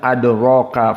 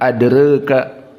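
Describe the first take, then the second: First: The vowel after r is a fully open a. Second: The vowel after r is raised toward e. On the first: This is how another reading tradition recites it. "dibaca dalam keadaan adraka fathah" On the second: This is how one reading tradition recites it. "qiraah Wars menjadi taklil"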